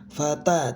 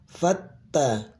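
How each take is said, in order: First: The t is short and not held. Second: The t is doubled and held longer. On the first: The speaker calls it wrong. "jangan fata" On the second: The speaker calls it right. "tapi fatta"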